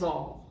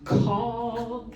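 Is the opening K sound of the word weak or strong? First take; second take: weak; strong. First: The opening K sound is dropped or very weak. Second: The opening K sound is crisp and strong. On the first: The speaker calls it wrong. "answer freedom's all" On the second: The speaker calls it right. "Capital C on call. Capital K sound"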